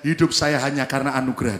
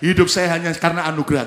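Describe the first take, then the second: First: It is said at normal volume. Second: It is said louder, with more force.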